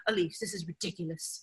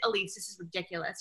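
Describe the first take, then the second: First: A light imitation of a British fiance's accent, soft and dry. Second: Said in the usual way. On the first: Imitating her British fiance in a mild British accent. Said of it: "he's British, so he'd be like". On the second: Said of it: "and he'd be like".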